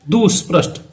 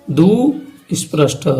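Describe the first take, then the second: First: Said in the usual way. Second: दुस्पृष्ट drawn out slowly, each sound clear; slow repeat. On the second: Shown as a demonstration. Teacher repeats the term for students, slow and deliberate. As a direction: spell out दुस्पृष्ट slowly for the class. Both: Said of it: "कौन सा?".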